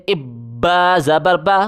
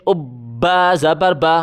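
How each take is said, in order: Both takes have the same delivery.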